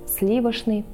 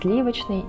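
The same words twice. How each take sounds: First: The word is said in an older pronunciation. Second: The word is said in the current pronunciation. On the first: This was the norm in the 1940s. "В 40-х годах 20 века нормой было произносить" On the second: This is today's norm. "Сегодня же норма изменилась, и мы говорим"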